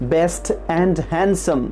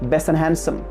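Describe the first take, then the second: First: The t and d sounds are fully pronounced. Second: The t and d sounds are dropped.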